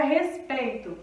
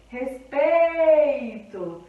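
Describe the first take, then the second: First: Said in the usual way. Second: "respeito" very slow, PEI loud and stretched; stress on penultimate syllable. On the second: Shown as a demonstration. Teacher showing penúltima sílaba tônica, "respeito" with PEI loudly drawn out. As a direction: hold a loud, long PEI inside "respeito". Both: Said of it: "penúltima sílaba que é tônica".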